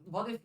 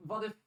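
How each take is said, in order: Both takes have the same delivery.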